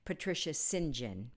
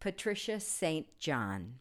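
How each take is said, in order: First: St. John is said as one word, Sinjin. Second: St. John is said as two spelled-out words. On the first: This is how the English and the bearer say the name. The speaker calls it right. "Her name is actually pronounced Patricia St. John in England" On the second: This is how Americans say the name. The speaker calls it wrong. "we pronounce it in America incorrectly"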